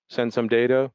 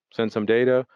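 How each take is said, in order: Both takes have the same delivery.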